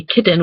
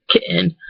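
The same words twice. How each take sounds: First: "kitten" as KIT-ten; pronounced T. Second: "kitten" as KIH'-in; glottal stop. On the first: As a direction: release the t clearly in kitten. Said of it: "we don't say kitten". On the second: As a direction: stop the voice where kitten has tt. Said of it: "we say kitten". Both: Shown as a demonstration.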